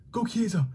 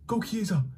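The two takes are said the same way.

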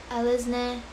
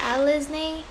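First: "Alice Na-" as AH-liz NEH; alternative pronunciation. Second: "Alice Na-" as AL-iz NAY, higher; trying a pronunciation. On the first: Streamer unsure of the salon's name, trying "Alice Na-" as AH-liz NEH. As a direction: end "Alice Na-" on a short, level NEH. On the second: Streamer unsure of the salon's name, trying "Alice Na-" as AL-iz NAY. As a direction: say "Alice Na-" with a lifted, long AY ending. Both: Shown as a demonstration. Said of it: "so many ways you can pronounce it".

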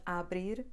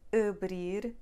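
First: Abrir with a wide-open "ah" at the start; open A mispronunciation. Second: Abrir with a muted "uh" for the A; reduced first vowel. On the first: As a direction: give abrir a full A, as a wrong example. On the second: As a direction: open Abrir on a closed schwa, stress the end. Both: Shown as a demonstration. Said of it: "it's not abrir".

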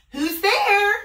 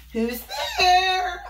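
First: Loud high granny call; high old Granny. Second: High wolf pretending to be Granny; fake high granny. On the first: Acted. Granny calling out to the knock at the door. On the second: Wolf in Granny's bed calling to Little Red. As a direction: put on a granny voice.

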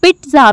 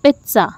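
First: पिज़्ज़ा said "pitza" with a separate t and z; पिज़्ज़ा with t and z kept apart; wrong pizza. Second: पिज़्ज़ा said with a ts sound, "pitsa"; पिज़्ज़ा with t and z merged into ts; correct pizza. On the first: Teacher showing a wrong pizza, t and z apart. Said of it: "भी नहीं इसको बोलना". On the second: Teacher modelling the correct pizza, ts sound. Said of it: "जबकि ये word है". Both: Shown as a demonstration.

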